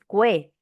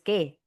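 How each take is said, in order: First: A 'w' sound follows the k sound. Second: No 'w' sound follows the k sound. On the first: The speaker calls it wrong. "Tú no dices cue" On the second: The speaker calls it right. "tú dices que. No suena"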